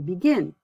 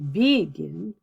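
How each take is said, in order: First: The stress is on the second syllable. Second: The stress is on the first syllable. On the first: The speaker calls it right. "my stress is on the second syllable" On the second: The speaker calls it wrong. "I don't say begin"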